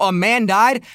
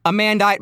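First: Rising, disbelieving echo; incredulous question. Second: Said in the usual way. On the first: Retold or imitated. Mocking the article's wording, incredulous. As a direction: throw the phrase back in disbelief. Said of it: "Bitch! Oh, oh". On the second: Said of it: "the passive language that's employed in the article".

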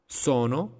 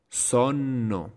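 First: Sono with a short middle N, rising; single N. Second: Sonno with a long held N; double N. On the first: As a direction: keep the N quick in Sono. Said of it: "con una sola consonante". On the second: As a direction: linger on the middle N of sonno. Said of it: "con doble consonante". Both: Shown as a demonstration.

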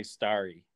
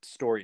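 First: "starry" said like starry nights; Canadian "starry". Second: "story" in place of "starry"; American "story". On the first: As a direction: say "starry" with a clear ar vowel. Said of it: "we do say starry". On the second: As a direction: say "story" with an or vowel. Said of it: "which is actually story nights to you guys". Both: Shown as a demonstration.

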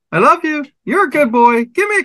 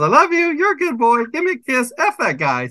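First: Very high squawky parrot imitation; high parrot mimicry of a sweet-talking bird. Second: Very high squawky parrot imitation, dropping on the last line. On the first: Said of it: "And the bird went". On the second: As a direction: mimic the parrot's mixed-up phrases. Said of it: "And now my bird goes".

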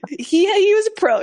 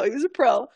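First: Laughing, high and louder; laughing admiration. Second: Said in the usual way. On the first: Real, not acted. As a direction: burst out laughing as you say it. Laughing about the tour guide.

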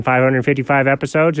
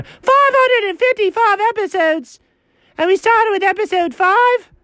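First: Said in the usual way. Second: Very high incredulous yell; shrieked comic outrage; outraged outburst. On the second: Acted. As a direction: explode in high-pitched disbelief. Outraged repeat of episode count.

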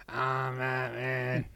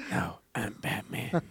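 First: Slow, drawn-out Batman line; Batman impression. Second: Gravelly Batman. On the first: Answering a friend's Batman with a slower Batman. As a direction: stretch it out like Batman, barely holding a laugh. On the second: Retold or imitated.

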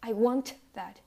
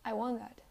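First: "I want that" loud, with a hard T in "want"; released T. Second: "I want that" linked, no T release in "want"; unreleased T. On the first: Teacher showing what people don't say, "want" with hard T. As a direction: pop the T of "want". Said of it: "People don't say". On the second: Teacher showing how people talk, "want" with swallowed T. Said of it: "you don't pronounce the T strongly". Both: Shown as a demonstration.

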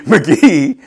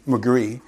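First: McGee said cleanly with no r, laughing at the slip; laughing correction McGee; corrected name. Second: McGree said with an r after the g, mispronounced; quiet fumbled McGree; mispronounced name. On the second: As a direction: say McGree with a slipped r sound. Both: Shown as a demonstration.

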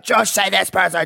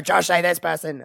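First: A higher, louder, pushy fan demand; mock Australian listeners. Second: Sung, singsong repeat of the demand; sung chant. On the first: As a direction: call out to Josh like an insistent Australian listener. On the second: Retold or imitated. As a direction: chant it like a little jingle. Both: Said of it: "Australians listening to this will be like".

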